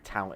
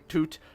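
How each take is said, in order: First: The vowel sounds like ow in out. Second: The vowel sounds like oo in food. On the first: "you'd probably say tout instead, because it's just out with the T on the front" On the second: "If an Englishman read that, I think they would say Toot"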